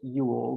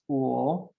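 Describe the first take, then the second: First: The name starts with a y sound. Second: The name starts with a vowel sound. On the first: This is how the family says it. The speaker calls it wrong. "I say it Yule" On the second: This is the original German way. The speaker calls it right. "I've been told it's Uhl, uh, and it's German"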